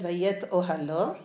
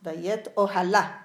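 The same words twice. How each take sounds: First: "Vayet ohalo" read slowly, ending in -o; "ohalo" with the final o, as the text is written. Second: "Vayet ohala" slow, louder, ending in -a; spoken reading. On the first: Rabbi's daughter showing how the word is written, slowly. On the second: Rabbi's daughter giving the spoken reading, louder and slow. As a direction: land on the final a of "ohala". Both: Shown as a demonstration. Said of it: "it's Kri Uchtiv".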